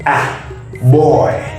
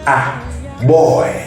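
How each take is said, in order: First: The first word sounds like a short 'ah'. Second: The first word sounds like a short 'ah'.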